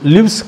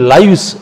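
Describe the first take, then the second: First: The vowel is a short 'i' sound. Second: The vowel is a long 'eye' sound. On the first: The speaker calls it wrong. "లివ్స్ కాదు" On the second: The speaker calls it right. "అది లైవ్స్"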